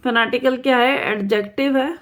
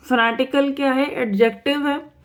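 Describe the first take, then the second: No difference in how they are said.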